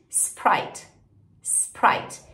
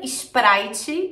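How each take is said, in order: First: "Sprite" in one syllable; English "Sprite", no added vowels; English pronunciation. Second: "Sprite" as "isprAItchi"; Brazilian-style "Sprite", three syllables; Brazilian pronunciation. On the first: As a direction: model "Sprite" starting on S, ending on T. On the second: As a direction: add Portuguese vowels before and after "Sprite". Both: Shown as a demonstration. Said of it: "em inglês".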